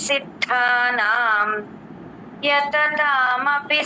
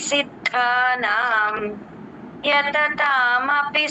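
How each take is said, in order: The two takes are said the same way.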